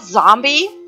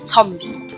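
First: The word begins with a plain z sound. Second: The word begins with a ts sound.

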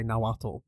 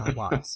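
First: The ending is a plain t and l. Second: The ending has a voiceless hissing lateral sound. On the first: The speaker calls it wrong. "most people say Nahuatl" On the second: The speaker calls it right. "it's a lateral voiceless alveolar fricative"

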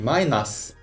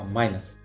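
First: The last syllable has a full short vowel. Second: The last syllable has a weak schwa vowel. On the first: The speaker calls it wrong. "Не «майнас»" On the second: The speaker calls it right. "а «майнус»"

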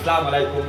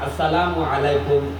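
First: The opening syllable is dropped from the greeting. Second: The greeting is said with every syllable. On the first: The speaker calls it wrong. "মুসলমান সালামও শুদ্ধ করে দিতে জানে না।" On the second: The speaker calls it right. "নামাজের মধ্যে ইমাম সাহেবের সাথে সালাম ফিরায়"

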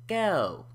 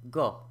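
First: The vowel starts with spread lips, like ew. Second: The vowel stays a single O without gliding. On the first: "the O sound starts with the lips slightly retracted, as in ew" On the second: "produced as a monophthong, meaning it's just produced as a single vowel"

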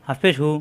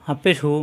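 No difference in how they are said.

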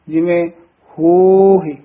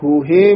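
First: The final syllable carries a faint i sound. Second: The final syllable ends in a full e sound. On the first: The speaker calls it right. "ਇਹ ਸਿਹਾਰੀ ਦਾ ਉਚਾਰਨ ਹੈ।" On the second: The speaker calls it wrong. "ਲਾਂ ਦਾ ਉਚਾਰਨ ਹੈ"

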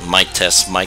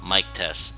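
First: The voice is recorded at a high gain and sounds loud. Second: The voice is recorded at a low gain and sounds quiet. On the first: "now let's change it to 12" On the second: "Testing out the Logitech mic at 0 dB when it's next to my head"

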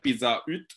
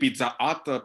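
First: It is pronounced with French sounds. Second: It is pronounced with English sounds. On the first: "en francés se dice pizza hut" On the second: "no van a decir Pizza Hut"

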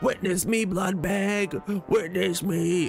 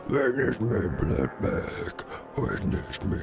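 First: It is said in a higher voice. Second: It is said in a deep voice.

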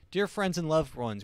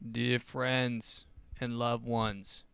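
First: It is read in the speaker's ordinary voice. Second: It is said in an imitated put-on voice.

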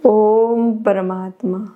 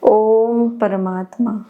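Both takes have the same delivery.

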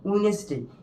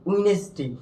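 The two takes are said the same way.

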